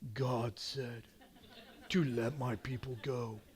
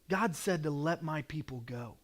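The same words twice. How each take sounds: First: It is said powerfully, with dramatic force. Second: It is said in a plain, ordinary way.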